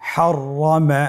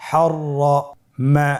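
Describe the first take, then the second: First: Said in the usual way. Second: হররমা stretched very slowly with a doubled র; slow drawn-out reading. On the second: Shown as a demonstration. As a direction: draw out হররমা sound by sound. (ধীরে টেনে হররমা) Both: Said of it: "আমার সাথে বলুন".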